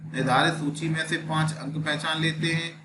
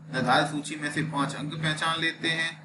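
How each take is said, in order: Both takes have the same delivery.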